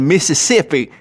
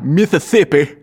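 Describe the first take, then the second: First: The word is said in an ordinary accent. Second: The word is said in an odd, funny accent.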